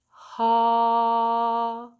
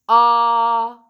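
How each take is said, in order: First: The vowel starts softly with a breathy h-like onset. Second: The vowel starts abruptly with a hard, louder onset. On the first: "with an aspirate attack" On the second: "do the glottal attack"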